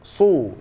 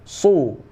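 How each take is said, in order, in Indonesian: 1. Bunyi s itu berat dan tebal. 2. Bunyi s itu berat dan tebal.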